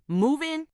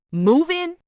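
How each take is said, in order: First: Quiet, flat, disbelieving repeat; first stunned echo. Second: Higher and louder, can't believe it; incredulous outburst. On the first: Hearing his move-in idea, quietly stunned. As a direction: say it under your breath, still processing. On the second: Reacting to boyfriend's move-in idea, loud disbelief. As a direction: throw the question back at him in disbelief. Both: Real, not acted. Echoing boyfriend's sudden proposal.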